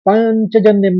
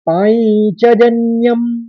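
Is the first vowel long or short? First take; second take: short; long. First: The first vowel is short and unstressed. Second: The first vowel is long and stressed. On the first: The speaker calls it wrong. "हम पंचजन्यम नहीं कहेंगे" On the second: The speaker calls it right. "पा और ज के ऊपर आघात है"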